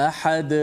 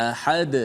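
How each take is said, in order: The two takes are said the same way.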